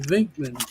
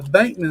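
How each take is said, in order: First: The name begins with a V sound. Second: The name begins with a B sound. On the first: The speaker calls it right. "but it's actually Vinkman V E N K M A N" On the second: The speaker calls it wrong. "I was always calling Peter Bank uh, Bankman like bank like B A N K"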